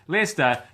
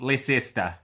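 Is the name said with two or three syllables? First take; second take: two; three. First: The name is said short, with two syllables. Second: The name is said long, with three syllables. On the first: The speaker calls it right. "now know that it is Leicester" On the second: The speaker calls it wrong. "not Leicester"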